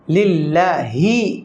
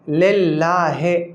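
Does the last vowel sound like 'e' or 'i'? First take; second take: i; e. First: The last vowel sounds like 'i'. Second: The last vowel sounds like 'e'. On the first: The speaker calls it right. "सही क्या है लिल्लाहि, है नहीं ही" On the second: The speaker calls it wrong. "ये गलत है"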